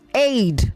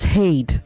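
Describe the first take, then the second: First: The word begins with a vowel, no H. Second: The word begins with an added H sound. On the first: The speaker calls it right. "You say aid" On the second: The speaker calls it wrong. "don't insert an H where, where there isn't any"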